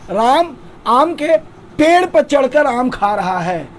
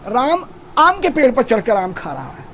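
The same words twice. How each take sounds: First: The stress is on climbing up. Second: The stress is on the mango tree.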